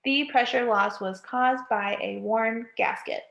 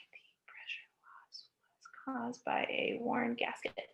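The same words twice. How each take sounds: First: Said in the usual way. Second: Whispered under the breath, counting words. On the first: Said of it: "that's nine words". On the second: Shown as a demonstration. Teacher whispering the sentence to count its words. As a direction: murmur it to yourself while counting each word. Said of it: "Nine words".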